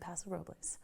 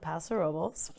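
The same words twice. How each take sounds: First: The name is said a non-local way. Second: The name is said the local way. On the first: The speaker calls it wrong. "They do not say Paso Robles" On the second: The speaker calls it right. "I'm pronouncing it correctly"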